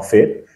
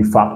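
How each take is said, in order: First: "fait" with an eh vowel, as in fate; the wrong reading "fait", lifted at the end; long A as counterexample. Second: "fat" with an open French-style a; short A. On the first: Teacher shows what not to say, eh sound in "fait". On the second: Teacher explains the reading to learners, short a in "fat". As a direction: say "fat" with ah, not eh. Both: Shown as a demonstration. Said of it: "on dit pas fait".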